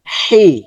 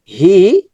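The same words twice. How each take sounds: First: "হি" with a dense h from the throat; h from inside. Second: Said in the usual way. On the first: Shown as a demonstration. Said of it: "ভিতর থেকে". ("হি" গলার ভিতর থেকে) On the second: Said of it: "normal sound হচ্ছে".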